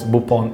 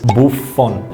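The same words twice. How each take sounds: First: The F sound is not pronounced. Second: The F sound is clearly pronounced. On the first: "otherwise Buffon is okay too" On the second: "I know you don't pronounce the F, but it is Buffon"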